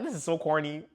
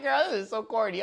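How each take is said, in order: First: 1 laughing. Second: Said in the usual way. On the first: Retold or imitated. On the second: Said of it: "I was like".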